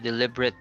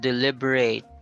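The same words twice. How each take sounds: First: The last syllable has a reduced schwa vowel. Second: The last syllable has a full 'ay' vowel. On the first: It is used as an adjective. "It's an adjective" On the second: It is used as a verb. "because that's a verb"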